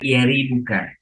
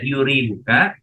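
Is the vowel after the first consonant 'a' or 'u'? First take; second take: a; u. First: The vowel after the first consonant is a. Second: The vowel after the first consonant is u. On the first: "boleh dibaca yari buka" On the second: "boleh dibaca yuri buka"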